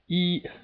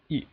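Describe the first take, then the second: First: The pitch stays high and level throughout. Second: The syllable is short, with no distinct contour. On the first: "It's just a straight line, and it's a very stable sound" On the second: "it sounds very quick"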